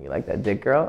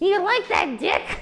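First: It is said in a low, warm, purring voice. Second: It is said in a plain, unsexy voice.

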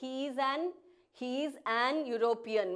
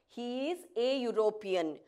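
First: The article before European is said as 'an'. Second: The article before European is said as 'a'. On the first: The speaker calls it wrong. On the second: The speaker calls it right.

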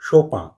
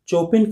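First: The name ends in a nasal 'an' sound. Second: The name starts with 'ch' and ends 'in'. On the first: "तो कुछ लोग शोपां" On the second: "चोपिन कहना पूरी तरह गलत होगा"

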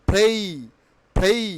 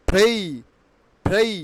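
No difference in how they are said.

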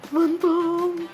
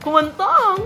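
First: The word is said in a frightened tone. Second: The word is said in a happy tone. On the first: "natatakot ka naman" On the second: "Ayan, happy"

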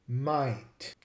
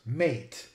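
First: The vowel sounds close to 'eye'. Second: The vowel is a plain 'ay' sound. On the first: "in Australia, the pronunciation is more like might" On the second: "in the US, it would be pronounced mate"

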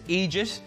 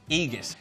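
First: The middle consonant is a soft J sound. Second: The middle consonant is a hard G sound. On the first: "There's two ways to say this" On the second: "just replace the J with a G"

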